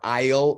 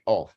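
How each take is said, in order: First: It is said with a full 'eye' vowel. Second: It is reduced to a quick 'oh' sound. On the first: The speaker calls it wrong. "So you don't say I will or I'll" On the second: The speaker calls it right. "you say oh"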